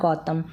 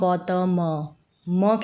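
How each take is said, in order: First: The name ends on a bare m sound. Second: The final m is drawn out with a vowel. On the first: The speaker calls it right. "ये हो गया गौतम" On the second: The speaker calls it wrong. "ऐसे नहीं pronounce करें गौतम म खींच के नहीं बोल रहे हैं लास्ट में"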